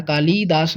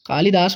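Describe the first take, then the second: First: कालीदास with a long ई, kaa-lee-daas; कालीदास the common mistake; wrong pronunciation. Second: कालिदास with a short इ, kaa-li-daas; कालिदास said correctly; correct pronunciation. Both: Shown as a demonstration. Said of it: "कालीदास नहीं".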